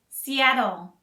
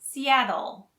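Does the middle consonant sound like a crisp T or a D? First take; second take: D; D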